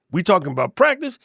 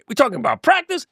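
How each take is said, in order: First: Lightly imitating the famous press conference; incredulous repeat of the word practice, mostly own voice; Allen Iverson quote. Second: Mock disbelief, pitched higher; hammed-up Iverson, voice jumping up on practice; Allen Iverson quote. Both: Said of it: "I'm Allen Iverson".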